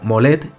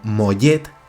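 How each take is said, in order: First: The middle consonant sounds like a plain L. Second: The middle consonant sounds like a Y. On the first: The speaker calls it wrong. "no se dice como Molet" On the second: The speaker calls it right. "con Y"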